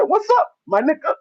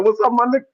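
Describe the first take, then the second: First: Much higher, mimicked movie greeting; high-pitched impression of a clueless copycat; Jackie. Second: Lightly imitated casual greeting, pitched up; a hint of the cool movie buddy; breezy retold hello between friends; Chris Tucker. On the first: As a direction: imitate an innocent newcomer copying slang. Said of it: "Jackie came back to the bar". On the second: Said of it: "when Chris Tucker walked in".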